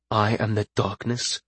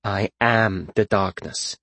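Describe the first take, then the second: First: Soft, incredulous echo with a questioning rise; understated, quietly skeptical; deadpan mutter. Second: Slow, portentous pronouncement; slow and grandly theatrical; dramatic declaration. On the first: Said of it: "looked at him deadpan and muttered". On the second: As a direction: draw it out ominously, falling at the end. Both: A narrator's reading.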